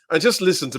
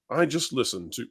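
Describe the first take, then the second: First: It is said in a put-on British accent. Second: It is said in the speaker's ordinary accent.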